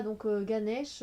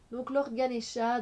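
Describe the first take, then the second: First: "Ganesh" said the French way, with no final vowel; French pronunciation. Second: "Lord Ganesha" said the English way, with the final a; English pronunciation. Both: Shown as a demonstration.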